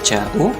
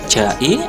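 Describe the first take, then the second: First: The word ends in a u vowel. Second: The word ends in an i vowel. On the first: "atau ja'u" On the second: "tidak boleh ja'i"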